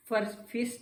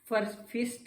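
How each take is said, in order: First: The vowel is a short 'ih' sound. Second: The vowel is a short 'ih' sound.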